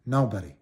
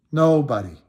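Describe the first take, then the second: First: Said in the usual way. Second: Stamp down hard on "Nobody" the second time; emphatic repeat. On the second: Real, not acted. Emphatic repeat, louder take.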